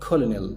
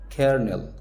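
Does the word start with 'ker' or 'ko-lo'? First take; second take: ko-lo; ker. First: It is said with three syllables, ko-lo-nel. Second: It is said with two syllables, ker-nel. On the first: The speaker calls it wrong. "قلتها كولونيل صح؟ لا" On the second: The speaker calls it right. "اسمها كيرنل"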